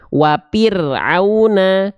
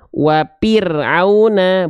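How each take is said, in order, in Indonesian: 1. Konsonan di tengah adalah bunyi p. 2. Konsonan di tengah adalah bunyi p.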